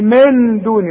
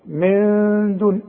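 First: The n is pronounced clearly with the tongue. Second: The n is hidden with a held nasal hum. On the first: The speaker calls it wrong. "اوعى تستعمل لسانك" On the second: The speaker calls it right. "حخفيها وحغنها بمقدار حركتين"

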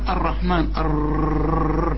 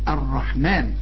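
First: The r sound is rolled and drawn out. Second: The r sound is a single doubled r. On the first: The speaker calls it wrong. "في ناس تقول لك الرحمن وتقول لك الرحمن الرر" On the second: The speaker calls it right. "قولها راء واحده مشدده"

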